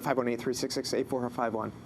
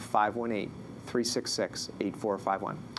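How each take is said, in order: First: The number is read out quickly. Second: The number is read out slowly. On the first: The caller will struggle to catch the number. The speaker calls it wrong. "slow down the message" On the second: The caller can note the number easily. The speaker calls it right. "I say it slowly too"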